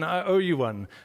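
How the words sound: It sounds warm and thankful. The speaker thanks someone for a kindness. "in a very positive sense"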